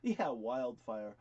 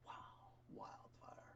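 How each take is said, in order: First: Slow, drawn-out wildfire; slow emphasis. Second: Breathy whispered wildfire. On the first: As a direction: savor the word wildfire, slow and firm. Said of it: "my dad's word". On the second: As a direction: whisper the word wildfire like a secret. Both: Shown as a demonstration.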